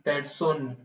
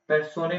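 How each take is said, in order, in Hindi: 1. शब्द का अंत n की ध्वनि से होता है। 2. शब्द के अंत में एक अतिरिक्त स्वर की ध्वनि है। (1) "दिस इज पेर्सोन" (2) "पेर्सोने नहीं"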